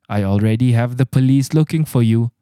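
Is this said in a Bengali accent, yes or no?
no. It is said in the speaker's own everyday accent.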